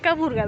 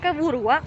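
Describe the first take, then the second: First: No w sound comes before the final vowel. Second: A w sound comes before the final vowel.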